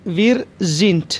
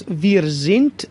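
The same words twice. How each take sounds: First: Said in the usual way. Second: "sind" said very slowly, its final d voiced as a crisp t; slow teacher demo, "sind" ending in t. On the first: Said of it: "دی که در پایان کلمه است". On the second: Shown as a demonstration. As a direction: stretch out "sind" and land hard on a t sound at the end.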